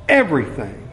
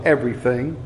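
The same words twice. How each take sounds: First: Everything said firmly with a falling tune; falling answer. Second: Everything asked back with a rising tune; rising answer. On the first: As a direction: settle it: Everything, down and final. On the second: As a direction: toss Everything up like a question. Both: Shown as a demonstration. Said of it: "what's that got to do with the gospel".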